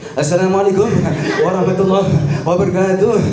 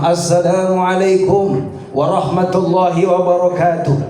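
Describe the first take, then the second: First: It imitates a dangdut MC's greeting. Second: It imitates a preacher's greeting.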